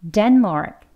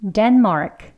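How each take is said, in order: No difference in how they are said.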